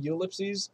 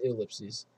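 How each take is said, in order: First: "ellipses" opening on a long U sound; "ellipses" said as you-LIP-sees. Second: "ellipses" opening on a short ih sound; "ellipses" said as ih-LIP-sees. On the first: Player asking listeners which is right, "ellipses" as you-lipsees. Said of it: "Is it actually ellipses or is it". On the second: Player asking listeners which is right, "ellipses" as ih-lipsees. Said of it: "With, like, a U or an E". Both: Shown as a demonstration.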